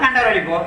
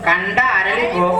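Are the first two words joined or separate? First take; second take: joined; separate. First: The first two words run together as one. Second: The first two words are said separately. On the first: The speaker calls it wrong. "சேர்த்து சொன்னா" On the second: The speaker calls it right. "பிரிச்சு சொல்லணும்"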